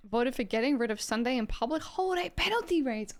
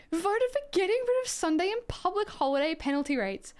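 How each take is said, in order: First: Said in the usual way. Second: The line re-read much higher in disbelief; high, disbelieving re-read of the vote; incredulous reread. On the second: Real, not acted. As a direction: read it back, aghast. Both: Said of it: "Oh my God".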